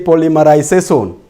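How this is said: It is said with a Luo accent.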